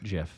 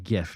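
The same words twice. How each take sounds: First: It starts with a soft G sound. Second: It starts with a hard G sound. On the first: The speaker calls it wrong. "not GIF" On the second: The speaker calls it right. "the G is supposed to be enunciated in the nature of the word it stands for"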